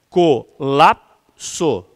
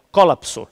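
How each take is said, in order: First: "Colapso" slow and loud, stress on the middle syllable, co-LAP-so; slow, emphatic "Colapso" with the stress on lap; correct stress. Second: "colapso" stressed on the first syllable, CO-lap-so, louder; mock wrong "colapso" with the stress on co. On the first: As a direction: say "Colapso" as a paroxytone, drawing it out. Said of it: "é paroxítona". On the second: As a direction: read "colapso" as a proparoxytone, stress at the start. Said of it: "Se fosse proparoxítona". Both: Shown as a demonstration.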